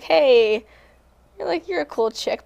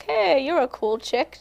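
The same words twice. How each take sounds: First: Said in the usual way. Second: Drawn-out, lightly imitated British accent. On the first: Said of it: "but she has a British accent". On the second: Singer retelling a publicist's invitation, light British accent. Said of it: "but she has a British accent, so it was almost like".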